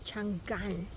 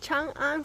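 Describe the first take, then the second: First: The syllables split as Chan and gan. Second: The syllables split as Chang and an. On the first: The name means long drought. The speaker calls it wrong. "the salesperson pronounced it as Chang'an" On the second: The name means everlasting peace. The speaker calls it right. "it is Chang'an for everlasting peace"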